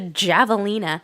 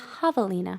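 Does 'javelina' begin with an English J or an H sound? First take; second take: English J; H sound. First: It begins with a hard English J sound. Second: It begins with a soft, H-like Spanish sound. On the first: The speaker calls it wrong. "What on earth is a javelina?" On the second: The speaker calls it right. "it was a soft J, like in Spanish"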